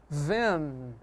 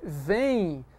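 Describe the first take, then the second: First: "ven" ending in a hard N, drawn out; wrong final N. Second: "vem" drawn out with a nasal I glide at the end; natural I glide. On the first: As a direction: close "ven" on an N instead of an I glide. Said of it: "você não pronuncia". ("ven" com N final, errado e alongado) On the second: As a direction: let "vem" end like "vein", no hard N. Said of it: "Se você diz vem". ("vem" com som de I no final) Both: Shown as a demonstration.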